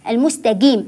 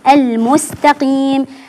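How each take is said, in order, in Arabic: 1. الحرف الأوسط ينطق مثل g. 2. الحرف الأوسط قاف عميقة من الحلق. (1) "البعض يقول المستقيم جيم" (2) "في القرآن لا أقول إلا بهذا النطق"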